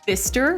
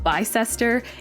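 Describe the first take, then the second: First: The name is said in a short, clipped form. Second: The name is said in a long, spelled-out form. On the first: The speaker calls it right. "It's almost always something shorter" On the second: The speaker calls it wrong.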